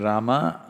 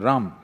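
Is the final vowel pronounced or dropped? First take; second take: pronounced; dropped. First: The final vowel is fully pronounced. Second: The final vowel is cut off, northern Hindi style.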